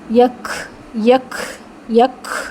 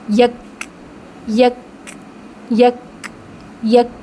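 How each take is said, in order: First: The final k becomes a harsh, scraping kh sound. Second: The final k releases a light puff of breath. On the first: The speaker calls it wrong. "ये खा नहीं है" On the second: The speaker calls it right. "आपकी सांस प्रोनाउंस हो गई"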